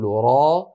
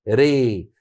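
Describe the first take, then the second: First: The vowel is fully open, like a. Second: The vowel is strongly raised, toward ee. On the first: "من كان يفتح فيقول را" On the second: "يميله إمالة كبرى فيقول ري"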